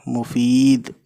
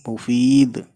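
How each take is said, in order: No difference in how they are said.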